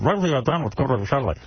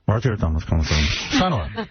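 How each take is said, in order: First: The words are spoken clearly and distinctly. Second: The words are mumbled and hard to make out.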